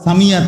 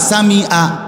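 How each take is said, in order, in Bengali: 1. 'y' ধ্বনি দুটি স্বরধ্বনিকে যুক্ত করে। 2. হামজা (glottal stop) দুটি স্বরধ্বনিকে আলাদা করে। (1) "আপনি তো করলেন ইয়া" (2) "আপনি তো বললেন হামজা"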